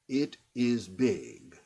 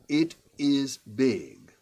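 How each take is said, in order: First: The vowels are short English-style I sounds. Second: The same.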